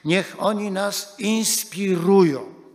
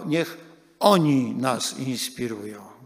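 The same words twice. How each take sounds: First: The stress falls on the word inspirują. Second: The stress falls on the word oni. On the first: Their example should actually move and guide us. "zaakcentowali dwojako ... Po pierwsze" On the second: They, rather than the many others, should be our inspiration. "I po drugie, zaakcentujmy to"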